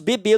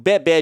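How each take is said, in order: First: The E vowels are said closed. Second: The E vowels are said open. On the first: This is how it is said in Brazil. "A gente fecha o E, a gente não abre" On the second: This is how it is said in Portugal. "o bebê de Portugal"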